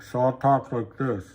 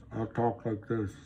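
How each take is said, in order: First: Said in the usual way. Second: Softer, a changed voice as if talking through lipstick. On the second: Shown as a demonstration. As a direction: talk through painted lips, softer.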